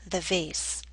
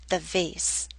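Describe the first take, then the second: No difference in how they are said.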